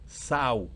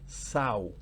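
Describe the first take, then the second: First: It is said like the noun meaning female pig. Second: The same.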